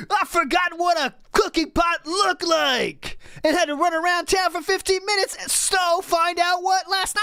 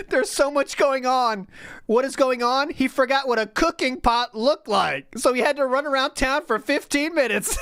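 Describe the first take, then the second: First: High, whiny imitation of an overwhelmed streamer; mock a frantic complainer, pitch raised; seething streamer. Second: High, laughing mockery of the streamer; mock whiny retelling, laughing. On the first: Reading out the streamer's seething message, mock whiny high voice. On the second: Retelling her favorite line, laughing high mock voice. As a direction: squeal it out through laughter. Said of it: "That's my favorite".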